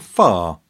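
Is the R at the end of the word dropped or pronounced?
dropped. The final R is dropped.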